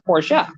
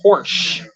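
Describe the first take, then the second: First: It is pronounced the original way. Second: It is pronounced the American way. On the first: The speaker calls it right. "When in reality, it's a Porsche" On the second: The speaker calls it wrong. "Americans would call it a Porsche"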